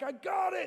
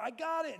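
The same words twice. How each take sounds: First: Very high strained shout; yelling back. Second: High, strained gym grunt; mid-lift, forcing it out. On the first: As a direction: bark it back at the spotter mid-lift. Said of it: "you're yelling back". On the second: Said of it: "you're like". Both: Retold or imitated.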